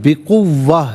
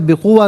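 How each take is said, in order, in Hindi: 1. w ध्वनि खिंची हुई और दोहरी है। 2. w ध्वनि छोटी और एकल है। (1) "वाव को तशदीद है ना तो जमाव के साथ पढ़ेंगे" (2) "नहीं"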